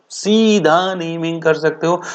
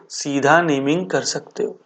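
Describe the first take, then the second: First: सीधा stretched out slowly for emphasis; slow, weighty stress on सीधा; emphatic repeat. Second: Said in the usual way. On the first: Real, not acted. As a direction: lean long on सीधा, driving it home.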